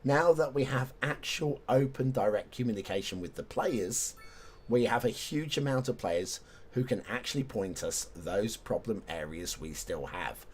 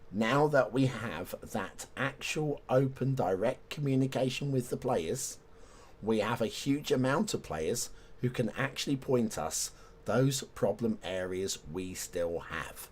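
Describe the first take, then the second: First: It is read at a normal speed. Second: It is read slowly and deliberately.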